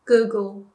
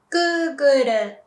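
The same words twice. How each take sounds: First: Said in the usual way. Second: "Google" as Japanese "gūguru"; Japanese pronunciation. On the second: Shown as a demonstration. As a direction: say "Google" as "goo-gu-ru", tapped R. English then Japanese brand demo.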